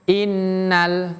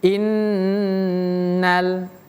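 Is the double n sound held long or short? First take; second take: short; long. First: The double n is cut short quickly. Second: The double n is held noticeably longer. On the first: The speaker calls it wrong. "jangan cepat-cepat pindah" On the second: The speaker calls it right. "tahannya agak lama"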